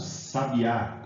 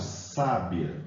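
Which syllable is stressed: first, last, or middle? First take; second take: last; first. First: The stress is on the last syllable. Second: The stress is on the first syllable. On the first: It names a bird. "a sílaba tônica está no A" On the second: It means a wise woman. "a sílaba tônica nesse caso recai sobre uh, o sa"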